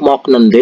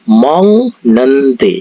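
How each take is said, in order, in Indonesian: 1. Suku kata pertama diakhiri dengan bunyi k. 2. Suku kata pertama diakhiri dengan bunyi ng. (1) "tulisannya itu mok nende" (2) "tapi dibaca mong nende"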